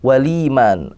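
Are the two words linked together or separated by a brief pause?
linked. The words run together with no break.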